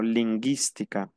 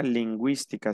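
First: LINGÜÍSTICA as "lin-GHEES-ti-ca", no W sound; silent U. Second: LINGÜÍSTICA as "lin-GWEES-ti-ca"; sounded U. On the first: Teacher showing the word without two dots, silent U. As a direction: drop the U in LINGÜÍSTICA, hard G then I. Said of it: "no llevara los dos puntos". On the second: Teacher showing what the two dots do, sounded U. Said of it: "yo pronuncio la U". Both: Shown as a demonstration.

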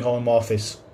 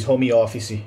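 First: Said in the usual way. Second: "home office" said Brazilian-style, "homi offici"; Portuguese pronunciation. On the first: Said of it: "in English we don't say". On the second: Shown as a demonstration. Teacher showing how Brazilians say it, Portuguese pronunciation. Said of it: "as we say in Portuguese".

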